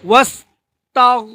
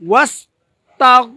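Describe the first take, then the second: The two takes are said the same way.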